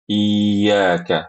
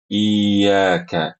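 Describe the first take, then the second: No difference in how they are said.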